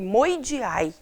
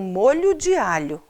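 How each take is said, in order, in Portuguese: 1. As palavras são encurtadas, com várias consoantes omitidas. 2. Cada palavra é pronunciada por completo, com todas as consoantes. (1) "Ele chamava de moi de ai" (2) "Ele está fazendo um molho de alho"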